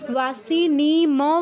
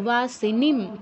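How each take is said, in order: First: The final m is followed by a full vowel. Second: The word ends in a bare m, no vowel. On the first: The speaker calls it wrong. "বলবো না কেউ" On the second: The speaker calls it right. "ময়ের নিচে হসন্ত আছে তার মানে আমরা পূর্ণ উচ্চারণ করতে পারবো না"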